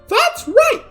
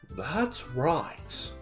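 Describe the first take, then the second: First: It is said in a Mickey Mouse voice. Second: It is said in a plain voice.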